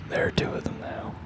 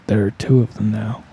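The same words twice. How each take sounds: First: It is whispered with almost no voice. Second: It is voiced weakly, like someone half dead. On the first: "but then I read he whispers" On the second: "I gotta pretend like I'm half dead"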